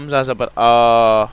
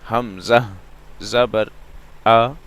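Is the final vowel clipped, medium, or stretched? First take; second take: stretched; medium. First: The final vowel is drawn out long. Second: The final vowel has a medium length. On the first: The speaker calls it wrong. "पहले हम stretch कर रहे थे, खींच रहे थे, लंबा कर रहे थे" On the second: The speaker calls it right. "ना मैं खींच रहा हूं ना झटका दे रहा हूं, दरमियानी आवाज है"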